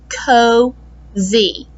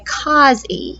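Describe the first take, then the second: First: The O is long, like its letter name. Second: The O is short, as in a closed syllable. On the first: The speaker calls it right. "that O says its name, so it's got to be an open vowel" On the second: The speaker calls it wrong. "It would make a short sound because that's a closed syllable"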